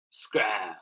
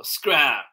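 First: Said in the usual way. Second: Loud, raised order to leave; firm dismissal. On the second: Acted. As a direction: send the child off loudly. Mom orders Mouse out.

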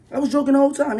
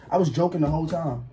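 First: Defensive higher repeat; louder, higher insisting. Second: Said in the usual way. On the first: Real, not acted. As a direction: raise the voice on I was joking the whole time, stress whole.

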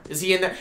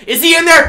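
First: Said in the usual way. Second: High, very loud repeated question; yelled demand. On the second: Pretend. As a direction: scream the question at them. Repeats the question, now yelling.

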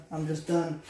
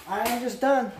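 First: Said in the usual way. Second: Higher, louder, fed up; frustrated, raising the voice; exasperated, louder. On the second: Real, not acted. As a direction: push it out in exasperation. Venting frustration, repeats louder.

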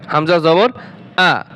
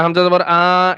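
First: The final "আ" cut short, with no stretch; quick short vowel. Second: The final "আ" dragged out long; wrongly stretched vowel. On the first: Teacher showing how harakat is read, final "আ" quick and short. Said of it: "হরকতের উচ্চারণ তাড়াতাড়ি করিয়া পড়িতে হয়". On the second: Teacher showing learners what not to do, final "আ" stretched long. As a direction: hold "আ" far too long as a mistake. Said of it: "এভাবে টান দেওয়া যাবে না". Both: Shown as a demonstration.

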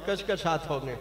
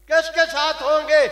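First: Said in the usual way. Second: Much louder and higher, a ringing shout; loud repeated question. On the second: Acted. Preacher repeating his question to the crowd, now shouted. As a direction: hurl the question back at the crowd.

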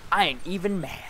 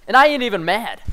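First: "I ain't even mad" said softer, deadpan; quieter meme repeat. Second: Said in the usual way. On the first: Shown as a demonstration. Gamer repeating the meme line to viewers, dry and quieter. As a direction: drop the volume and shrug "I ain't even mad".

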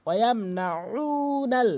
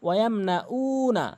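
First: Slow ওয়াম না উনাল with throaty, drawn-out উ; correct ain. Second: উ as a plain "oo" without throat sound; wrong, dropped ain. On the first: Shown as a demonstration. Teacher models the correct recitation, slow throaty chant. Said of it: "এখানে আইনটি সঠিক উচ্চারণ করে". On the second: Retold or imitated. Teacher mimics most people's mistake, plain vowel. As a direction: say ওয়াম না উ না with an ordinary vowel for উ. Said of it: "অধিকাংশ লোক করে".

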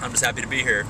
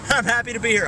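First: Said in the usual way. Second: Much higher, giggly repeat; high laughing echo. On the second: Pretend. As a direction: say it again giggling.

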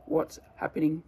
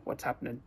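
First: Said in the usual way. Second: "What's happening" fused, ending "happ'nen"; lower, softer "What's happening" with the g dropped; combined into one. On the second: Shown as a demonstration. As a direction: squash "happening" to two syllables, "happ'nen".

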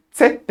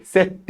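First: "Set" as tset, with ts at the start; German-style "Set" opening on a sharp ts; hissed correction. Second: "Set" with a plain s, no hiss; wrong pronunciation. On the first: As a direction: hiss the start of "Set", pitched up. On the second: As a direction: mistaken "Set", lacking the t before s. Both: Shown as a demonstration. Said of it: "Tısla birazcık".

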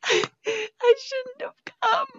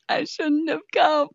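First: Very high slow hammed-up wail; drawn-out theatrical cry; mock wail. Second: Hammed-up crying shout, higher; theatrical cry of regret; mock despair. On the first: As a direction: stretch it out into a fake sob. Mock despair repeated, wailing. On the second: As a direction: wail in fake despair. Mock despair, losing control.

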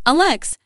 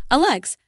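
First: Firm, loud and high, cutting in; wife addressing husband with resolve, firm. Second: Called out, high and louder; wife calling husband to greet her mother, calling out. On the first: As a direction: say his name firmly to take a stand. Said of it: "I said firmly". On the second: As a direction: call his name across the room. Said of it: "I called out". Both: Acted.

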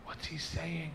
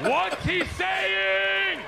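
First: Soft, puzzled aside; hushed question. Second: High, drawn-out holler; insistent shout. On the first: Retelling asking a stranger at the airport, hushed. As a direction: ask discreetly under the noise, softly. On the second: Retelling demanding a translation from a stranger, slow shouting. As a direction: stretch every word into a loud demand. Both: Retold or imitated.

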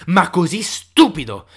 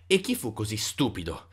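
First: STUPIDO hit louder and drawn out; emphatic stress. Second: Said in the usual way. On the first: A narrator's reading. Narrator marvels at such foolishness, emphatic stress on STUPIDO. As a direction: punch STUPIDO slowly, much louder. Narrator intensifies the repeated phrase.

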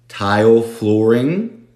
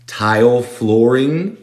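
First: Same slow rising take of flooring; slow echo. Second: Slow with a rise on flooring; slow modelled phrase. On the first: Teacher repeating tile flooring slowly for students. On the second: Teacher modelling tile flooring slowly for students. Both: Shown as a demonstration.

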